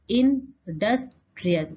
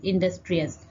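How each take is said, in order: First: "industrious" slowly, broken into इं, डस्, ट्रियस; teacher sounding out "industrious" piece by piece; split into syllables. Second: Said in the usual way. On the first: Shown as a demonstration. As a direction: pause between the parts of "industrious". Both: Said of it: "दो से ज्यादा syllable".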